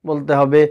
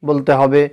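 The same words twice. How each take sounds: No difference in how they are said.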